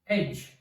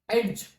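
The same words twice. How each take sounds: First: No separate D sound is pronounced. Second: A separate D sound is pronounced. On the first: The speaker calls it right. "D is not pronounced" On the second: The speaker calls it wrong. "We don't say that edge"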